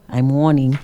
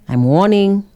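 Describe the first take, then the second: First: Dropped, serious warning; mean it this time; level stern warning; firmer warning. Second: Lilting, teasing warning; sing-song mock warning; playful warning. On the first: Pretend. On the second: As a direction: wag a finger with a light lift.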